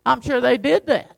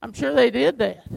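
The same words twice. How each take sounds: First: "did" pressed with a falling tune; stress on did. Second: "they" pressed, the rest falling away; stress on they. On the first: Preacher conceding a point to the congregation, "did" stressed. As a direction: lean on "did", let it fall. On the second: Preacher repeating the concession, "they" stressed. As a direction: lean on "they" in "I'm sure they did that". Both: Shown as a demonstration. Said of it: "repeats line with shifted stress".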